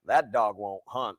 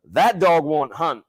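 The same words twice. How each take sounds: First: Low, slow Southern drawl; unconvincing Southern impression, lower and unhurried; Southern accent impression. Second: Slow, punched Southern drawl; Southern twang, slow and emphatic; Southern accent. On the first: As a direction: attempt a deeper, drawn-out Southern accent. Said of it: "He probably said it like". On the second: Retold or imitated. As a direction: quote it in a loud, drawn-out Southern accent. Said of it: "don't do your Southern accent".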